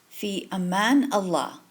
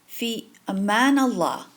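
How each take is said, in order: Both takes have the same delivery.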